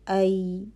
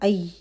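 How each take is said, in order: First: The sound continues without stopping. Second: The sound is cut off abruptly. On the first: The speaker calls it right. "तो आवाज़ जारी रहती है" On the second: The speaker calls it wrong. "हम आई नहीं कर रहे"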